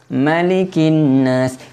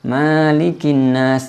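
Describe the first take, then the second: First: The first vowel is kept short. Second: The first vowel is drawn out long. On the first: The speaker calls it right. "pendek ya" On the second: The speaker calls it wrong. "Banyak sekali orang baca malikin nas, ini salah ya"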